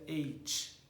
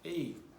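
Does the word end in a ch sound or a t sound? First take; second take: ch sound; t sound. First: The word ends in a hissing ch-like sound. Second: The word ends in a crisp t sound. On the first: The speaker calls it wrong. "essa maneira é incorreta" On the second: The speaker calls it right. "a gente vai dar essa ênfase no T"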